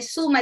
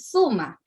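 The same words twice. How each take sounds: First: The first sound is an s sound. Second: The first sound is a th sound. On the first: The speaker calls it right. "En vez de decir" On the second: The speaker calls it wrong. "ponen la Z en vez de la S"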